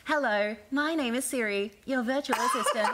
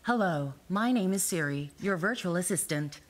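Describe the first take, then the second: First: Higher Australian Siri voice; bright virtual assistant, Australian accent. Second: Lightly voiced American Siri; calm virtual assistant, American. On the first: Acted. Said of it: "the Australian one is like". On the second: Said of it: "that was the American one".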